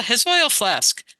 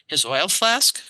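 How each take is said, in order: First: "his oil flask" slow, falling at the end; statement tune. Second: "His oil flask" rising on flask like a question. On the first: Scanning the line for the hosts, falling statement tune. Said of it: "Da-da, da-da". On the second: Reading the variant line, question tune. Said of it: "question mark". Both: Shown as a demonstration.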